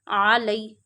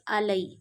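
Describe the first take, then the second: First: It starts with a deep throat ain sound. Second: It starts with a plain glottal stop. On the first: The speaker calls it right. "Read ain from the middle of your throat" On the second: The speaker calls it wrong. "This is not hamza. Don't read it like this"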